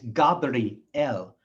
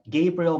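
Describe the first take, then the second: First: It is said with a Hebrew pronunciation. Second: It is said with an English pronunciation. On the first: The speaker calls it right. "In Hebrew, it's" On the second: The speaker calls it wrong. "their names in English are"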